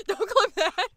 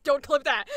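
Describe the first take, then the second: First: Higher, louder plea through laughter; laughing plea. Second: Louder, emphatic joking warning. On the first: Streamer begging chat not to clip it, laughing plea. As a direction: repeat the warning, raised and giggly. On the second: Streamer telling chat not to clip the joke, joking warning. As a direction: warn them off firmly, half-kidding. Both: Real, not acted.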